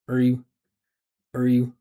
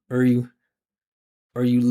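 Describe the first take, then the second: No difference in how they are said.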